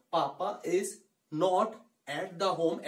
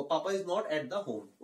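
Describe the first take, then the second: First: Spaced-out words with pauses; slowly, word by word. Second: Slow but joined-up sentence; slow, smooth model line. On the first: Teacher telling learners to go slowly, word by word. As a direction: speak it slowly, one word at a time. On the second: Teacher repeating the sentence slowly for students. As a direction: say the whole line slowly in one go. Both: Shown as a demonstration. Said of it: "धीरे धीरे बोलना है आपको".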